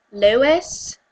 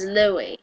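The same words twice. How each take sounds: First: "Lewis" said with a final S; American pronunciation. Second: "Louis" said like LOO-ee, silent S; British pronunciation. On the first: Ranter sets up the rival names, American pronunciation. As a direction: sound the S at the end of "Lewis". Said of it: "Apparently Americans pronounce it Lewis". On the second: Ranter sets up the rival names, British pronunciation. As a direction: drop the final S in "Louis". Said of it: "Pronounce it Louis". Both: Shown as a demonstration.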